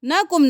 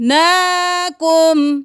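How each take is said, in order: First: The vowel after n is short. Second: The vowel after n is drawn out long. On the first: The speaker calls it wrong. "नहीं करना" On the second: The speaker calls it right. "खड़ी ज़बर"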